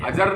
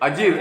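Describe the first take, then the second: First: The second vowel is a short a. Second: The second vowel is a long ee. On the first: The speaker calls it wrong. "अजर नहीं है" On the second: The speaker calls it right. "अजीर माने आंगन"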